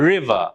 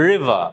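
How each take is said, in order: No difference in how they are said.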